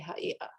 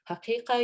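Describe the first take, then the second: First: The middle consonant is a glottal stop. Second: The middle consonant is a deep q sound. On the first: "the glottal stop is really typical of Middle Eastern varieties" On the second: "instead of saying haqiqa"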